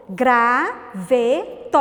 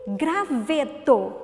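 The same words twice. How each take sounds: First: GRAVETO very slow, "gra... ve... to"; syllable by syllable. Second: Said in the usual way. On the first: Shown as a demonstration. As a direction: pause after each syllable of Graveto. (Graveto separado em três sílabas, bem devagar) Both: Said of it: "Quantas sílabas?".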